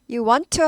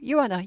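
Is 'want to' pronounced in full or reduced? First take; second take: full; reduced. First: The words 'want to' are pronounced in full. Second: The words 'want to' are reduced to 'wanna'. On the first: The speaker calls it wrong. "하는 사람이 거의 없고" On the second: The speaker calls it right.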